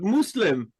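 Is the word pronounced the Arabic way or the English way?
Arabic. The word is pronounced the Arabic way.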